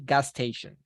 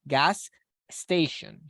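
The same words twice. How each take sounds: First: The two s sounds merge into one. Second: The two s sounds are said separately. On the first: The speaker calls it right. "we are going to join the sound" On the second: The speaker calls it wrong. "it is not going to be like gas station"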